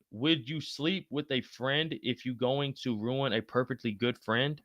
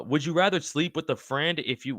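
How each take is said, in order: First: Slow, softer word-by-word reread; puzzled slow reading. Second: Said in the usual way. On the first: Real, not acted. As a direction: read it slowly, working out the meaning. Rereading a confusing chat question.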